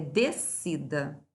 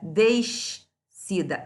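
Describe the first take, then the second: First: The S and C make a single sound. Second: The S and C are sounded separately. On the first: The speaker calls it right. "é descida" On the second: The speaker calls it wrong. "a gente não pronuncia descida"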